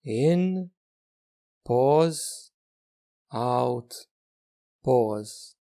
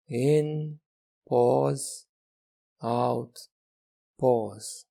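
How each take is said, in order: Both takes have the same delivery.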